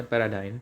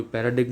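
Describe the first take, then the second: First: पैराडाइम ending in a clear long "aim" sound; teacher models the correct पैराडाइम for students, carefully pronounced; correct pronunciation. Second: पैराडिग said with a hard g ending, the wrong way; teacher warns students against saying पैराडिग with a g sound. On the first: छात्रों को सही उच्चारण पैराडाइम सिखाते हुए. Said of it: "इसका pronunciation है पैराडाइम". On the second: छात्रों को गलत उच्चारण पैराडिग बताते हुए. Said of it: "अब कोई पैराडिग मत बोलना". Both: Shown as a demonstration.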